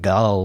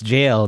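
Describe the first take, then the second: First: It starts with a hard g and has a short u. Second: It starts with a j sound and rhymes with pale. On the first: The speaker calls it wrong. "not like gull" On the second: The speaker calls it right. "it's jail"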